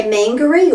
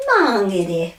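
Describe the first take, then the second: First: Mangere with flat English a, hard g and ee ending; Anglicised mangere, man-guh-ree; common mispronunciation. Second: Mah-nge-re with long a and tapped r; correct Māori pronunciation. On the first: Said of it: "So people say mangere". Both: Shown as a demonstration.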